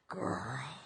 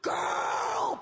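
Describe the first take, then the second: First: It sounds pitying and disappointed. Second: It sounds delighted and admiring.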